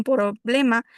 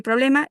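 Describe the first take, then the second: First: "problema" slowly, with an extra vowel between p and r; added vowel. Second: Said in the usual way. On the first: Shown as a demonstration. Student presenter showing the added vowel in "problema", said slowly. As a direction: stretch "problema" into pi-roblema, adding a vowel. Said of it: "Agregan una vocal". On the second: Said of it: "En vez de decir problema".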